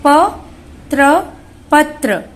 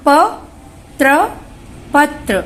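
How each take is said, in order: Both takes have the same delivery.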